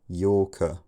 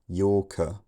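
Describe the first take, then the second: First: The k is followed by a puff of air. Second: The same.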